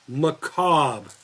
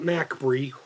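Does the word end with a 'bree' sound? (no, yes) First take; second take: no; yes. First: The word ends without a 'bree' sound. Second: The word ends with a 'bree' sound. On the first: The speaker calls it right. "say it with me" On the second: The speaker calls it wrong. "Not Macbree"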